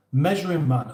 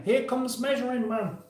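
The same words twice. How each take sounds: First: Said in the usual way. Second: High announcer call, pitched way up; announcer intro. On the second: Acted. Announcing the guest to stream viewers, high announcer voice. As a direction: announce him like a game show host. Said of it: "Now then".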